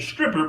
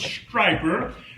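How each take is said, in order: First: The first syllable sounds like 'strip'. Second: The first syllable sounds like 'stripe'. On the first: The speaker calls it wrong. "I was pronouncing it Stripper" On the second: The speaker calls it right. "I was corrected and told that it was Striper"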